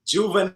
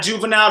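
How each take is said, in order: First: Haitian accent. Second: Juvenile said like the rapper, JOO-ve-nile; the rapper's Juvenile, ending in nile; wrong take, rapper's name. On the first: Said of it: "You gotta say it with your Haitian accent". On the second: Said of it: "Not [name] the rapper". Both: Shown as a demonstration.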